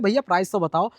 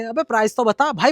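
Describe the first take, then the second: First: It is said in a soft, quiet voice. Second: It is said in a louder, insistent voice.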